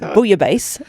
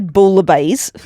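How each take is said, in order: First: The L sounds are left silent in the word. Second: The L sounds are pronounced in the word. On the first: The speaker calls it right. "it's bouillabaisse. You don't pronounce the L's" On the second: The speaker calls it wrong. "You don't say bouillabaisse"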